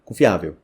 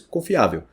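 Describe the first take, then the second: No difference in how they are said.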